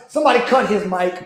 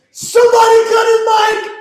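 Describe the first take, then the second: First: Said in the usual way. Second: Much higher, loud shout; shouted demand. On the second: Real, not acted. Fan demands the commentator be silenced, high loud shout. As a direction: bellow it at the whole room.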